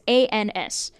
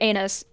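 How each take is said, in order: First: The letters are spoken separately and slowly. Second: The letters are run together quickly into one word.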